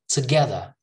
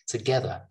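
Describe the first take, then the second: First: It is said in a non-British accent. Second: It is said in a British accent.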